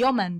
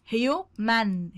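First: Said in the usual way. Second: Teacher slowly sounding out human for pupils; slow drawn-out demo. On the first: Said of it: "teacher repeats word normally". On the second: Shown as a demonstration. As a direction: say human very slowly, stretching each syllable. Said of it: "teacher drills word pronunciation".

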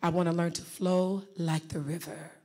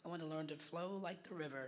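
First: Low, smooth, gliding "flow like the river". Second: Much softer, hesitant try at "flow like the river"; tentative attempt. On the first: Shown as a demonstration. Coach modelling a flowing voice for a student, smooth. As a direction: let it flow like water. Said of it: "listen very carefully". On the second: Real, not acted. Student copying the coach, soft and unsure. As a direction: say it timidly, not flowing yet. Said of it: "you gotta work on that".

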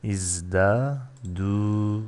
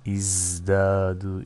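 First: "İzdadu" very slow, split before a long final du; drawn-out syllables. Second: Said in the usual way. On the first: Shown as a demonstration. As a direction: stretch out "İzdadu" to show its long u ending. ("İzdadu" ağır ağır, sondaki u uzatılarak) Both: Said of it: "Şöyle bitiyor".

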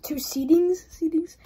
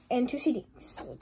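First: Wait, did I just say that; puzzled echo. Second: Said in the usual way. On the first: Real, not acted. Vlogger questioning his own wording, bemused rise. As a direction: repeat it as a bemused question, rising.

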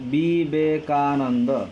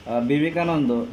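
First: Vivekananda drawn out very slowly, syllable by syllable. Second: Said in the usual way. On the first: Shown as a demonstration. Teacher counting five syllables for students, very slow. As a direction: tap out each syllable slowly. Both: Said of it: "পাঁচটা দল রয়েছে।".

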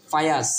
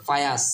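No difference in how they are said.

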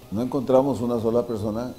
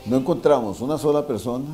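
Both takes have the same delivery.

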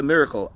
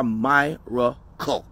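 First: "miracle" said MIH-ruh-kul, the ordinary way; plain short-i "miracle"; religious miracle. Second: "miracle" said MY-ruh-kul with a long I; MY-racle. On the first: The religious people's word, speaker telling the audience, said plainly. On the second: His own word for it, speaker telling the audience, MY-racle. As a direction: lean into the "my" in "miracle". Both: Shown as a demonstration. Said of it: "The religious people call it a miracle. I call it".

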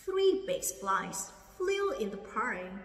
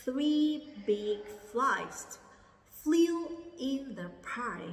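First: "Three big flies flew in the pie" read slowly, word by word; slow model reading. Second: "Three big flies flew in the pie" dragged out word by word, much slower; very slow repeat. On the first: Teacher modelling the sentence slowly for students. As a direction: read it slowly for learners to copy. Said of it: "Cô đọc lại ha". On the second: Teacher repeating very slowly so students can follow. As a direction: drag every word out. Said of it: "Lại lần nữa nha". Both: Shown as a demonstration.

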